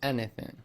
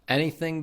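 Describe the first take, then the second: First: The final g sound is dropped. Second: The final g sound is pronounced.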